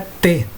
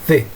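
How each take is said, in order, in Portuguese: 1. Começa com um som de t simples. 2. Começa com a língua entre os dentes. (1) "A pronúncia dela não é T" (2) "colocasse a língua entre os dentes"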